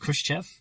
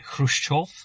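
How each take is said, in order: First: The name is said in an anglicized way. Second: The name is said closer to Russian. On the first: This is the version used in the film. "the film goes with the pronunciation" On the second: This is closer to the original pronunciation. "if you want to be really pedantic about it, it was something more like"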